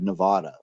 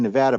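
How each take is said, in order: First: It is said the way non-locals say it. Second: It is said the Nevada and California local way.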